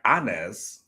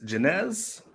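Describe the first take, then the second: First: The name is said in a Spanish way. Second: The name is said in an English way. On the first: "Spanish, and then it'll be like Anez" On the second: "in the way that I think it should be"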